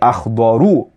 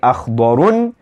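First: The word ends with a plain u vowel. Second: The word ends with a nasal n ending. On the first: The speaker calls it right. "We say أخضرو. Why? Because أخضرو is a diptote" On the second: The speaker calls it wrong. "We don't say أخضر"

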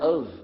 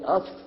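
First: The word ends with a V sound. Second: The word ends with an F sound. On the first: The speaker calls it right. "we pronounce it of with a V" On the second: The speaker calls it wrong. "We don't say of"

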